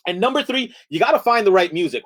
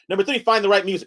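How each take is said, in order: First: Said in the usual way. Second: NUMBER THREE, FIND THE RIGHT MUSIC rattled off quickly; hurried presenter listing the last point; fast mock lecture. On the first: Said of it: "in one minute". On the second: Shown as a demonstration. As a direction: rush the line against a timer. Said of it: "that was pretty fast".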